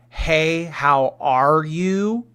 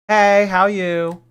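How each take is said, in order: First: It is said in choppy, broken pieces. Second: It is said smoothly in one breath.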